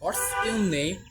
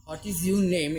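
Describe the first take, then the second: First: What's your name, run together into 'what's'; very slow, clipped 'what's'; contracted form. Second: What is your name, every word spelled out slowly; slow, full 'what is'; full form. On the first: Teacher models the short form slowly for students. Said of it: "এটা, আহ, ব্রিটিশে বেশি প্রাধান্য পায়". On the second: Teacher models the long form slowly for students. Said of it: "এটা ইংল্যান্ডের মতে বেশি প্রাধান্য পায়". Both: Shown as a demonstration.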